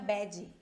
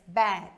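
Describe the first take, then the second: First: An extra vowel sound follows the final consonant. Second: The word ends cleanly on the final consonant. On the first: The speaker calls it wrong. "não é bad, tá? Não tem um som de I aqui" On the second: The speaker calls it right. "morreu o som atrás dos seus dentes"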